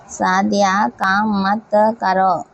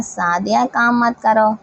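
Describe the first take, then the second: First: Slow, measured repeat for the class; drawn-out teacher's dictation. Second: Said in the usual way. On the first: Shown as a demonstration. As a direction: spell it out word by word, slowly. Teacher repeats example slowly for class.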